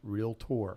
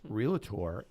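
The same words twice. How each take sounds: First: No extra vowel is inserted between L and T. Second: An extra vowel is inserted between L and T. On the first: The speaker calls it right. "It's pronounced realtor" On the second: The speaker calls it wrong. "It's not pronounced realtor with an A in it"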